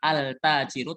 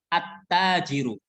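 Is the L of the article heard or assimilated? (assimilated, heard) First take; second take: heard; assimilated. First: The L of the article is clearly pronounced. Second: The L merges into a doubled following consonant. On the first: The speaker calls it wrong. "Bukan cara bacanya bukan al-tajiru" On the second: The speaker calls it right. "tapi at-tajiru"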